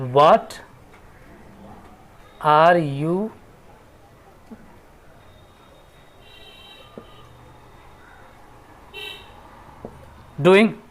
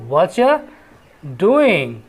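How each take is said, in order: First: Each word of 'what are you' is said separately. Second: 'What are you' is blended into one word.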